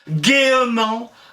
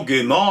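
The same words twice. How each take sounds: First: An extra E vowel is sounded before -ment. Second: No vowel is sounded between gai and -ment. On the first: This is the old medieval pronunciation. "on disait" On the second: This is the modern pronunciation. "on a cessé de prononcer le E. Et puis, encore maintenant, on dit"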